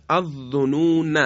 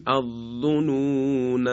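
First: الظنون with a short final "na"; don't stretch the ending of الظنون; connected form. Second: الظنون chanted, with the final alef stretched long; pausal form. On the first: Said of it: "دیگه نمیتونیم الف رو بکشیم". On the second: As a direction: intone الظنون, holding the "naa" at the end. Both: Shown as a demonstration.

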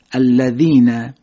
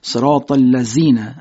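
First: Very slow, tongue between teeth on ذ of الذین; الذین with a clear ذ; Arabic dhal. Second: ذ of الذین hissed like a z; buzzing z in صراط الذین; wrong z sound. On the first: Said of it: "در سوره حمد داریم". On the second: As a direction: say الذین as allazin. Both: Shown as a demonstration.

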